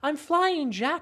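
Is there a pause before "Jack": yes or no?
no. It is said as one unbroken phrase.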